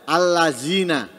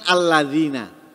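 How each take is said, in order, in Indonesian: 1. Huruf tengahnya bunyi z yang berdengung. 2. Huruf tengahnya bunyi mirip th yang lembut. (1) "Atau diganti za allazina" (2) "mestinya kan alladzina"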